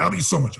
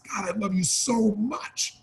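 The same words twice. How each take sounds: First: Said in the usual way. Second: Soft, slow and heartfelt; mean every word of it; heartfelt tender. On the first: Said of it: "But Tony, I don't talk like that". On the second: Shown as a demonstration. To a loved one, soft and slow with real feeling. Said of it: "There's a different feeling".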